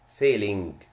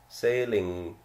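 First: A hard g is heard at the end. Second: No hard g is heard at the end. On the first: The speaker calls it wrong. "not sailing" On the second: The speaker calls it right. "We don't pronounce G"

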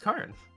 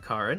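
First: The name is said the Italian way. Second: The name is said the usual English way. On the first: The speaker calls it right. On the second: The speaker calls it wrong.

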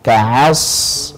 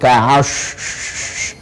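First: The hissing sound is a sharp, clean s. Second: The hissing sound is blended toward sh. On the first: The speaker calls it right. "Yang betul adalah ka'as, as, tajam" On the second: The speaker calls it wrong. "Itu tafashi, campuran antara sad dengan shin"

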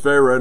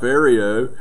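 First: It is said with a plain, standard pronunciation. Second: It is said with a broad Texas drawl. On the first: The speaker calls it right. "Pharaoh was Pharaoh" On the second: The speaker calls it wrong. "not Pharaoh"

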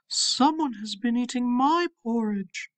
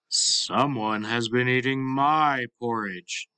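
First: It is said in a medium-sized voice. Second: It is said in a big, deep voice.

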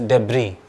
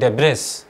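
First: The final 's' is silent. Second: The final 's' is pronounced. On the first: The speaker calls it right. "but it's pronounced as debris" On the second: The speaker calls it wrong. "by the spelling, it seems like debris"

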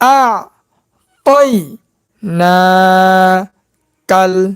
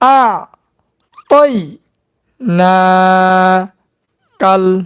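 No difference in how they are said.

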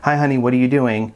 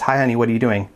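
First: It sounds warm and caring. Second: It sounds demanding and controlling.

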